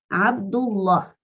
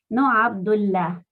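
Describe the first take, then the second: First: The L sound is heavy and thick. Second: The L sound is light and soft. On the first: The speaker calls it right. "Estoy diciendo Allah fuerte" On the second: The speaker calls it wrong.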